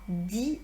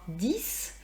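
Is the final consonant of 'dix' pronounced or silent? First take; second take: silent; pronounced. First: The final consonant is silent before the noun. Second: The final consonant is pronounced as an s. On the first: A noun follows the number. "je dois changer ma prononciation" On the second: Nothing follows the number. "j'aurais pu prononcer dix comme d'habitude parce qu'il n'y aurait rien eu après"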